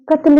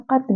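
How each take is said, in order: First: Said in the usual way. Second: कत्ल opened with a Persian q, far back in the throat; careful dotted-q कत्ल; deep-throat q. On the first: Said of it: "अब ये कत्ल नहीं है". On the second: Shown as a demonstration. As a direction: say कत्ल with uvular q instead of k. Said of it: "ये कत्ल है".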